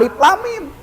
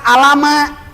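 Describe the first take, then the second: First: Three letter names are said, alif lam mim. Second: The letters are blended into one word, alama. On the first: The speaker calls it right. "disebutkan huruf" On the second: The speaker calls it wrong. "Kalau dibaca alama"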